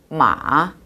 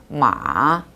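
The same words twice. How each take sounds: No difference in how they are said.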